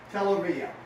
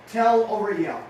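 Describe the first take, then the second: First: Said in the usual way. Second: Louder dictation. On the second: Shown as a demonstration. Coach dictating a slogan to riders, called out firmly. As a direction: tell over yell called out firmly. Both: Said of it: "Beside the letter".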